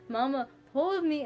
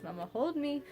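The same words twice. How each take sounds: First: Put-on toddler plea, louder and higher. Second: Imitating toddler. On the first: Daughter calling for her mother, a louder toddler plea. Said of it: "she'll get louder and louder". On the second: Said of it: "she goes".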